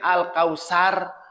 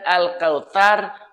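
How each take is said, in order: First: The middle consonant is a plain 's' sound. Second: The middle consonant is a soft 'th' sound. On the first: It means division and destruction. The speaker calls it wrong. "Lamun pakai sin" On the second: It means abundant blessing. The speaker calls it right. "Pakai T C"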